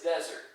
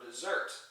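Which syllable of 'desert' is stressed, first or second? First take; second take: first; second. First: The stress is on the first syllable. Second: The stress is on the second syllable. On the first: It names a dry wasteland. "when the accent is on the first syllable" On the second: It means to abandon. "accent on the second syllable"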